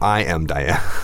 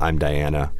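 First: I and am are said as two full words. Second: I and am merge into one syllable. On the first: "or I am Diana" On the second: "Usually it's just I'm"

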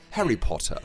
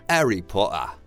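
First: It is said in an upper-class British accent. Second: It is said in a lower-class British accent. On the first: "would be a more upper class" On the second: "That's like the kind of lower class"

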